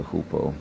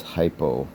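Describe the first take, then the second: First: Hupo with an "oo" in the first syllable; Greek pronunciation. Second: Hypo with a long English "eye" in the first syllable; English pronunciation. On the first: Teacher contrasting the Greek original with English, Greek pronunciation. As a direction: say hupo as "HOO-po". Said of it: "as opposed to hupo". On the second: Teacher showing the English form of a Greek word, English pronunciation. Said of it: "when it comes into English". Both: Shown as a demonstration.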